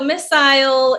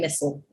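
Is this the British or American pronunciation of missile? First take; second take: British; American. First: It is said with a British pronunciation. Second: It is said with an American pronunciation. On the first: "missile in the U K" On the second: "in the States, we just say missile"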